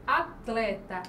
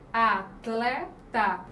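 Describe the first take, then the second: First: Said in the usual way. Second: "atleta" stretched out slowly, "a-tle-ta"; slow syllables. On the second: Shown as a demonstration. Teacher slowly sounding out atleta for the class. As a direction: draw out "atleta" to show the tl cluster. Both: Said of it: "o encontro aqui consonantal".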